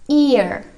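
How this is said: It is said with an r sound at the end. "untuk aksen Americannya itu ditambahin R"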